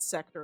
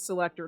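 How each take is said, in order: First: The middle 'l' syllable is left out. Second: The middle 'l' syllable is fully pronounced. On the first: The speaker calls it wrong. "I'm saying it wrong" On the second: The speaker calls it right. "It's selector"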